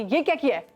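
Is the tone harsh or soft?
harsh. It is said in a harsh, angry tone.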